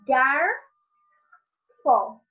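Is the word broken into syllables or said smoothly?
broken. The word is split with a pause between syllables.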